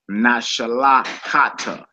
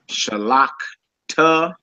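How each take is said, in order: First: An extra vowel is heard between the k and t. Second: No vowel is heard between the k and t. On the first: The speaker calls it wrong. "and not shalakata" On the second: The speaker calls it right. "So it's shalakta"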